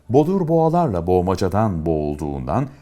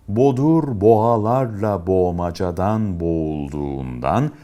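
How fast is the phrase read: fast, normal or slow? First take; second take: normal; slow. First: The phrase is read at a normal speed. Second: The phrase is read slowly and deliberately. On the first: "Şimdi normal hıza geçelim" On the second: "Bu hızda okuduktan sonra en az 2 kere daha okuyun. Lütfen sıkılmayın"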